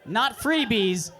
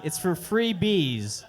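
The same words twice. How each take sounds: First: "freebies" as one quick word; freebies run together. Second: "free bees" said slow as two words; free bees split apart. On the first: Contrasting the wrong reading, "freebies" as one word. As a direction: blend "freebies" into a single word. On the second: Correcting the misreading, "free bees" slow and split. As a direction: separate "free" and "bees" with a beat. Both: Shown as a demonstration.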